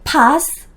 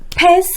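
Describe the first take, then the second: First: A British accent with an 'ah' vowel. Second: An American accent with the vowel of 'cat'.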